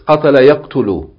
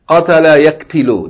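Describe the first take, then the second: First: The verb's middle vowel sounds like u. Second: The verb's middle vowel sounds like i. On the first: The speaker calls it right. "It's قَتَلَ يَقْتُلُ" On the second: The speaker calls it wrong. "it doesn't sound right"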